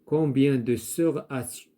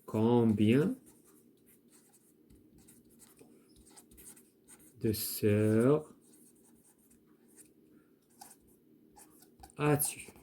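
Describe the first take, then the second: First: Said in the usual way. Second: "Combien de sœurs as-tu" split with long pauses; slow dictation. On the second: Shown as a demonstration. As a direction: dictate "Combien" "de sœurs" "as-tu" slowly for the class to write. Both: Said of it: "on peut dire".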